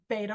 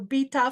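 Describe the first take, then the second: First: It is said with an American pronunciation. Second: It is said with a British pronunciation.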